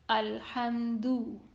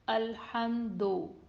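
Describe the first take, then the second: First: The final vowel is a close 'oo' sound. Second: The final vowel is a mid 'o' sound. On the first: The speaker calls it right. "Its Dhamma should be read with the sound of letter U" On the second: The speaker calls it wrong. "That is not correct and it is majhul sound"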